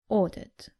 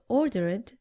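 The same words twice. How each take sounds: First: The ending adds no extra syllable. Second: The ending is said as an extra id syllable. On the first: The speaker calls it right. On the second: The speaker calls it wrong.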